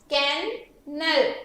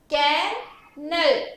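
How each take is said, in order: Both takes have the same delivery.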